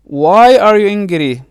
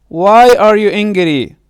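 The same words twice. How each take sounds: The two takes are said the same way.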